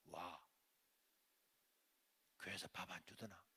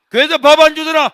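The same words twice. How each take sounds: First: Near-whispered imitation of mother; hushed, low needling question; low menacing quiet. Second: High, full-blast mocking question; scolding mother. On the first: Mother catching son sneaking home, low and menacing. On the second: Mother scolding son home from church, angry shouting. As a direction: yell it at the hungry son. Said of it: "야단치니까".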